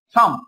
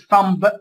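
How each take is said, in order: First: The word ends with an m sound. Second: The word ends with a b sound. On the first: The speaker calls it right. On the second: The speaker calls it wrong.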